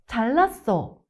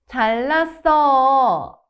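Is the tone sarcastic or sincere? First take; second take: sincere; sarcastic. First: It is said in a sincere tone. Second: It is said in a sarcastic tone. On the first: "the sincere version" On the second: "then the sarcastic version"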